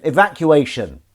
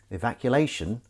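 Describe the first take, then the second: First: Evacuation said loud and slow without an L; loud, deliberate correction on Evacuation, no L; corrected pronunciation. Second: Evacuation with an extra L, like "evaculation"; mispronounced word. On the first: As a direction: spell out Evacuation firmly as "evac-u-ation". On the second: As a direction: slip an L into Evacuation before the "-ation". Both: Real, not acted. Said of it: "Making up words again".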